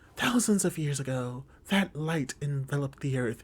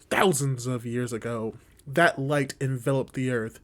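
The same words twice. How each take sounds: First: It is read in a put-on female character voice. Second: It is read in the speaker's ordinary voice.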